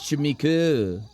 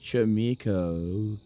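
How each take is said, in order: First: The name is said with plain English vowels. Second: The name is said with an O-U vowel sound.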